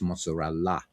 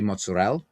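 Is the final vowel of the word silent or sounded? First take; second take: sounded; silent. First: The final vowel is clearly pronounced. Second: The final vowel is dropped and silent. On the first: It is the original Italian form of the word. The speaker calls it right. "when it's mozzarella" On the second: It is the American form of the word. The speaker calls it wrong. "American Italians say mozzarella"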